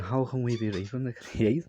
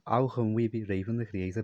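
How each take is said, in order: First: It is said in an amazed, laughing tone. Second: It is said in a plain, ordinary tone. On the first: The speaker calls it right. "Like that" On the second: The speaker calls it wrong. "they're not saying it in this tone of voice"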